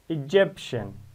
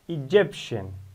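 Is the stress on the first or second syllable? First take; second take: second; second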